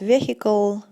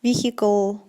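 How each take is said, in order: The two takes are said the same way.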